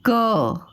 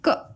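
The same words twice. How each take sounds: First: The consonant is said with a following vowel. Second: The consonant is said with no following vowel. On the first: "ये पूरा व्यंजन है" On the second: "ये जब हट जाता है तो इसको बोलते हैं क"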